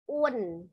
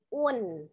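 Both takes have the same delivery.

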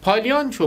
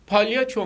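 First: An extra n sound comes before the ç. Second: No n sound comes before the ç. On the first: The speaker calls it wrong. "gereksiz yere harf sokmaya gerek yok" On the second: The speaker calls it right. "Palyaço onun aslı"

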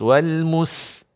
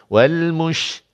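First: The consonant is a thin, light s sound. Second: The consonant is a thick, spread sh sound. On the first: The speaker calls it wrong. "Kalaulah tuan baca nipis" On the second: The speaker calls it right. "bunyi tebal begitu"

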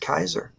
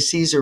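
First: The name begins with a hard k sound. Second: The name begins with a soft s sound. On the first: This is the original classical form of the name. The speaker calls it right. "his name was pronounced Kaiser" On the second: This is the later church form of the name. The speaker calls it wrong. "That's what do you call a church Latin to say Caesar"

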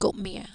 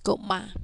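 First: The last syllable sounds like 'mia'. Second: The last syllable sounds like 'ma'. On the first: The speaker calls it wrong. "not gopmia" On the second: The speaker calls it right. "it is read as gopma"

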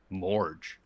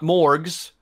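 First: The name ends with a 'j' sound. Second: The name ends with a 'gz' sound. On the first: The speaker calls it right. "It's M-O-R-J" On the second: The speaker calls it wrong. "not Morgs"

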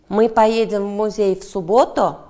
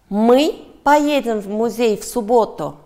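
First: The stress falls on the word 'субботу'. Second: The stress falls on the word 'мы'. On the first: The question asks when they will go. "Да, суббота" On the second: The question asks who is going. "Да, мы"

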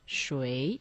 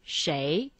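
First: The word is said in its fuller standard form. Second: The word is said in its everyday spoken form. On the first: This is the form that is harder to pronounce. "which seems to be easier to pronounce than 谁" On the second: This is the form people prefer in casual speech. "in oral Chinese, people prefer to say 谁"

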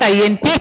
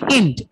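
First: Each letter is spoken separately. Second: It is spoken as one short word. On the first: The speaker calls it wrong. "It's not INT" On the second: The speaker calls it right. "You pronounce this just like int"

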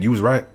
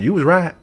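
First: It is said in the speaker's plain accent. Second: It is said in a Southern American accent.

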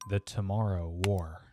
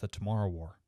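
First: The title is said at a normal pace. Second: The title is said quickly.

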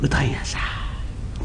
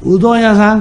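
First: It is said in a quiet voice. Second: It is called out loudly.

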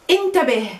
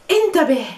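Both takes have the same delivery.

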